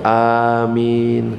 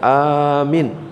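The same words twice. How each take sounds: First: Both vowels are long. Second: Only the first vowel is long. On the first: It means grant our prayers. The speaker calls it right. "Yang benar A-nya panjang, Min-nya juga panjang" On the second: It means asking for protection. The speaker calls it wrong. "Kalau A-nya yang panjang"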